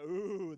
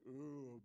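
First: It sounds genuinely impressed and pleased. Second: It sounds sarcastic and unimpressed.

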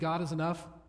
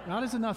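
First: It is said plainly, without much force. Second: It is said loudly, with strong conviction.

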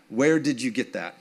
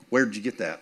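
First: Each word of 'did you' is said in full. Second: 'Did you' is run together into 'where'd ya'.

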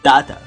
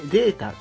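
First: The first vowel is 'ah', in an Australian accent. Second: The first vowel is 'ay', as in 'day'.

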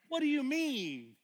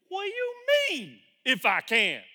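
First: It is said in a calm, gentle tone. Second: It is said in an indignant, sharp tone.

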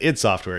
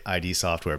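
First: ID is spoken as a single word. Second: ID is spoken as two separate letters. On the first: The speaker calls it right. "You're definitely correct there" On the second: The speaker calls it wrong. "I say ID software"

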